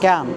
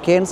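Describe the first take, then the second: First: It is said like 'Can', with no s. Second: It is said like 'Kens', ending in s. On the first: The speaker calls it right. "We should pronounce in France as క్యాన్" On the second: The speaker calls it wrong. "దీన్ని ఇందాక మనం కేన్స్ అన్నాం"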